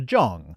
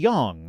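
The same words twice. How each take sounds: First: The name begins with a J sound. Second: The name begins with a Y sound. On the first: "otherwise it's" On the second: "the J is supposed to be a Y sound"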